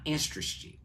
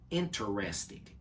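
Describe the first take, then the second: First: The word is said quickly with syllables run together. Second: The word is said slowly with every syllable clear. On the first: The speaker calls it wrong. "not interested" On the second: The speaker calls it right. "take your time and pronounce the word correctly. It is interested"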